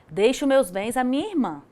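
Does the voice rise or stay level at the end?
level. It ends level, continuing the statement.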